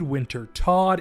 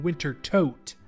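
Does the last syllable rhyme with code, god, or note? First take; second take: god; note. First: The last syllable has a short o and ends in d. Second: The last syllable has a long o and ends in t. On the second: "and Winter Tote"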